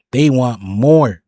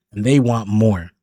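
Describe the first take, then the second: First: "They want more" slowed right down and louder, each word leaned on; slow, loud "They want more" driving the point home; emphatic repeat. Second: Said in the usual way. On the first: Real, not acted. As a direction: drag out "They want more" and hit it harder.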